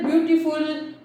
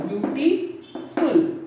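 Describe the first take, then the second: First: Said in the usual way. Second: "beautiful" slowly broken as beauti, pause, ful; split into syllables. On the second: Shown as a demonstration. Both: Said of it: "Two syllable".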